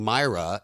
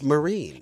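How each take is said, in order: First: The name is said like Myra. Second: The name is said like Marine. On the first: The speaker calls it wrong. "I've been saying her name wrong" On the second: The speaker calls it right. "So it's Marine"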